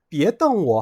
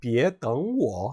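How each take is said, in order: First: 떵워 with the first word in a high level tone, quicker; tone contrast, glare. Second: 떵워 drawn out, 떵 rising into a dipping 워; tone contrast, wait. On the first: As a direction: say 떵워 as Chinese "dèng wǒ", don't glare at me. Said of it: "나를 노려보지 마"라는". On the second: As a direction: say 떵워 as Chinese "děng wǒ", third tone turning second. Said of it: "나를 기다리지 마"라는". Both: Shown as a demonstration.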